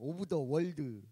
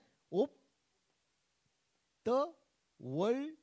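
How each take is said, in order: First: The final d is clearly said with a vowel. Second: The final d is barely audible. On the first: The speaker calls it wrong. "우리는 그러잖아" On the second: The speaker calls it right. "들릴 듯 말 듯"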